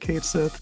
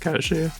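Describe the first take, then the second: First: The name ends with a 'sith' sound. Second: The name ends with a 'shee' sound. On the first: The speaker calls it wrong. "a lot of people will be incorrect" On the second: The speaker calls it right. "the actual like Gaelic is"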